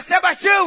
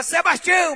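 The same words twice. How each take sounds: First: Higher, louder call of a name; mock call. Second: Higher calling out a name; mock call. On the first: Drowning boy calling his friend again, louder call. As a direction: call him again, more urgent. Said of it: "Ele gritava". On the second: Drowning boy calling his friend, mock call. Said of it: "ele gritava".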